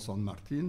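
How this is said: The name is said with a Spanish pronunciation. "si j'étais argentin, je dirais sûrement"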